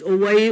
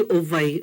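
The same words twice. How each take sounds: First: "Owai" said oh-wai; "Owai" with a W in the middle; W sound. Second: "Owai" said oh-vai; "Owai" with a V in the middle; V sound. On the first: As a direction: keep a rounded w glide in "Owai". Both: Shown as a demonstration. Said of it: "either way was correct".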